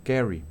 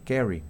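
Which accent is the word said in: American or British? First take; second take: American; American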